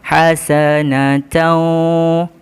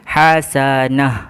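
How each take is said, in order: First: The ending is nasalized and runs into the next sound. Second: The word stops on a plain h sound. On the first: The reading continues to the next word. "bacaan kita perlu dengung dan kita perlu masukkan ke dalam huruf selepasnya" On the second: The reading stops at this word. "maka dia perlu dibaca seperti ha simpul"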